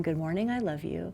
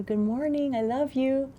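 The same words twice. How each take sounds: First: Softer, quieter good morning, I love you; soft repeat. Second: Put-on higher, tender good-morning to a small child; tender parent greeting. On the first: Retold or imitated. Parent repeating the waking greeting, soft and quiet. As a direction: murmur it gently at wake time. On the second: Parent greeting a small child at waking, tender and higher. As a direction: say it like cupping a child's face.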